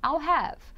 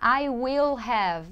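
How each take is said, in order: First: The words 'I will' are contracted to 'I'll'. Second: The words 'I will' are said in full. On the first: The speaker calls it right. "não, I'll have" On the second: The speaker calls it wrong. "A gente não vai falar I will have"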